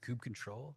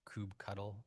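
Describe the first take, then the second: First: The ending is said as the word control. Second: The ending is said like the word cuddle.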